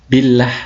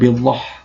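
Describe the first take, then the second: First: The L in 'llah' is light and thin. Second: The L in 'llah' is heavy and thick. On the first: The speaker calls it right. "Billah ya" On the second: The speaker calls it wrong. "bukan billah"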